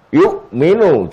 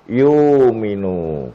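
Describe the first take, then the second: First: A glottal stop is pronounced before the m. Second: The glottal stop is replaced by a long u vowel. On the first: "tetap nge hamzah juga boleh" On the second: "Buk ganti dengan wawu boleh"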